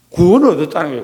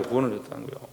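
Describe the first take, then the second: First: 구원을 stressed with a firm fall, said out full; preacher announces salvation to the congregation, firm and full; firm declaration. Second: 구원을 얻었다는 거예요 repeated almost under the breath, much softer; preacher repeats the point to himself, much softer; soft echo. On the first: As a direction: proclaim 구원을 얻었다는 거예요 strongly. Proclaiming then echoing softly. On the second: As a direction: echo it back very quietly. Soft echo of previous line. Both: Shown as a demonstration.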